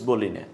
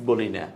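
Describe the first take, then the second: No difference in how they are said.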